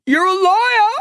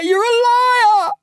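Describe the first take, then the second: First: Shrill scream pitched far higher and louder; boy screaming after Lyle at the gate. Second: Slow, breaking scream into tears, far higher; boy sobbing the final scream after Lyle; crying scream. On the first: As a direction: scream the word liar at his back. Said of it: "I screamed". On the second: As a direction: let the last liar collapse into crying. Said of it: "screaming so loud it hurt my throat". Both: Acted.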